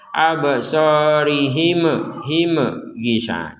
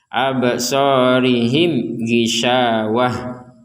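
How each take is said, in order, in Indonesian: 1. Huruf m diucapkan dengan pentalan yang bergema. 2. Huruf m diucapkan biasa, tanpa pentalan. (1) "Jangan sampai di sini juga dipentalkan seperti ba" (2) "maka dibaca jelas"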